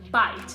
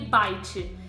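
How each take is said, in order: First: The word ends cleanly on the final consonant. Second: An extra i vowel follows the final consonant. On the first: The speaker calls it right. "é importante não colocar um i no final" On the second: The speaker calls it wrong. "elas vão acabar soando como"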